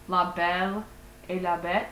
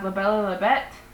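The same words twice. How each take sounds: First: The title is said more slowly. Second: The title is said very fast.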